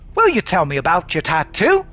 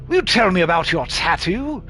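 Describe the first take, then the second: First: It is spoken in a plain, unaccented voice. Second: It is spoken in a posh, old-fashioned London accent.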